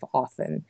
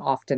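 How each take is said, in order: First: The t in the middle is silent. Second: The t in the middle is pronounced. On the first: The speaker calls it right. "we were supposed to not say the T" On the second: The speaker calls it wrong. "getting caught saying often"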